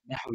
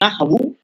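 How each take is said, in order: First: The word ends in an i vowel. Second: The word ends in a u vowel. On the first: The speaker calls it wrong. "Baca jar. ... kurang tepat lah" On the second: The speaker calls it right. "Yang pertama boleh baca rafa'"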